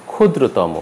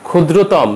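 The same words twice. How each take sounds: First: ক্ষুদ্রতম ending in "mo"; ক্ষুদ্রতম with rounded final "o"; final vowel sounded. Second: ক্ষুদ্রতম ending on bare m; dropped final vowel. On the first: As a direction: say ক্ষুদ্রতম as "khudro-taw-mo". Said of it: "উচ্চারণ হবে". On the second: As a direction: say ক্ষুদ্রতম as "khudro-tawm". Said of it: "উচ্চারণ হবে না". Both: Shown as a demonstration.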